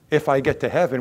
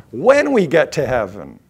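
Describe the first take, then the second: First: Said in the usual way. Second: "When" punched and louder; stress on WHEN. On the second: Shown as a demonstration. Preacher correcting a song lyric, stress on "When". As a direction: hit the word "When" hard, then let it fall. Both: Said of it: "We say".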